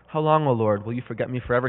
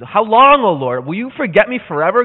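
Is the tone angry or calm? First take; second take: calm; angry. First: It is said calmly, without anger. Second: It is said angrily and boldly.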